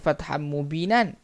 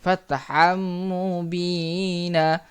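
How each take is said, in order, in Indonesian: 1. Frasa itu berakhir dengan bunyi n. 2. Frasa itu berakhir dengan vokal panjang. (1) "cara bacaannya bukan fatham mubinan" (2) "dengan bunyi satu baris... dua harakat"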